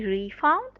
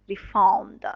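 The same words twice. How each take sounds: First: The stress is on the first syllable. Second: The stress is on the second syllable. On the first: It names the money given back. "As a noun" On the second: It names the act of giving money back. "Is on the second part"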